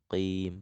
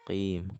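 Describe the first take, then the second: First: The first consonant is made deep in the throat. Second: The first consonant is made deep in the throat.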